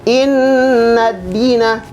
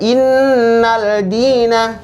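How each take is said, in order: First: The 'l' merges into a doubled 'd'. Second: An 'l' sound is heard before 'dina'. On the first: The speaker calls it right. "Tapi dibaca innad-dina" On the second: The speaker calls it wrong. "Bukan dibaca innal dina, salah"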